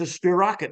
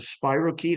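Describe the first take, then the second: First: It is said in an imitated Australian accent. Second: It is said in the speaker's plain usual accent.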